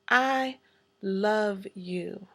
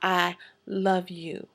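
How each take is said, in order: First: It is said in a warm, tender tone. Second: It is said in a plain, matter-of-fact tone.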